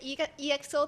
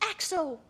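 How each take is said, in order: First: The name is spelled out letter by letter. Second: The name is said as one short word. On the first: The speaker calls it wrong. "It doesn't pronounce as E X Os" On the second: The speaker calls it right. "it's X O"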